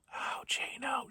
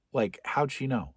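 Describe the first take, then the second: First: Slow, suspicious whisper; a slow whispered how'd she know. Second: Said in the usual way. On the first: Acted. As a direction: hiss it to yourself in paranoia. Paranoid quote, trailing into whisper.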